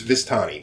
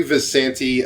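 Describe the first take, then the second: First: "Vistani" said as "vis-TAH-nee"; corrected pronunciation. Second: "Visanti" said with "san-tee" at the end; mispronounced name. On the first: Game master correcting the women's name, properly pronounced. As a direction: say "Vistani" with the t before the n. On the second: Game master naming the women at the table, mispronounced. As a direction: say "Visanti" with the n before the t. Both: Real, not acted. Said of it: "I'm mispronouncing this whole time".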